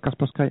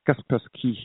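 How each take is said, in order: First: The name is said with an English pronunciation. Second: The name is said with a Russian pronunciation. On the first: The speaker calls it wrong. "Not Kaspersky" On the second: The speaker calls it right. "because he's a Russian"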